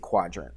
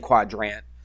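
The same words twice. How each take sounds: First: The sounds in the word are slurred together. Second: Every sound in the word is pronounced clearly. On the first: The speaker calls it right. "We just kind of slur it a little bit" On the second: The speaker calls it wrong. "we don't say quadrant"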